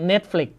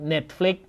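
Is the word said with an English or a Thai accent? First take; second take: English; Thai. First: It is said with an English-style pronunciation. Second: It is said with a Thai-style pronunciation. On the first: This is how Westerners say it. "ฝรั่งเรียก" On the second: This is how Thai people say it. "คนไทยเรียก"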